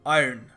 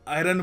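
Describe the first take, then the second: First: The word is said with a neutral accent. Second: The word is said with an Indian accent. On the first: The speaker calls it right. "Neutral accent, तो try किया करो आयरन" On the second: The speaker calls it wrong. "कई लोग आयरन बोलते हैं, ठीक है, India में चलता है"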